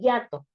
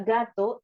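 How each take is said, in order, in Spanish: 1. La palabra empieza con un sonido Y. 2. La palabra empieza con una G fuerte. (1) "él dice yato" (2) "le pides que diga gato"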